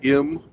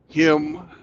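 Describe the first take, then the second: First: The word starts without any H sound. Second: The word starts with an audible H sound. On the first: The speaker calls it wrong. "you say im" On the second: The speaker calls it right. "other H words that start with H"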